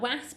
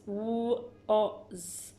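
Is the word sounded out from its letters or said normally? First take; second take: blended; normal. First: It is sounded out the way the letters blend. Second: It is said the way the word really sounds. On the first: The speaker calls it wrong. "blends like was, but it's not was" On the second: The speaker calls it right. "it's was"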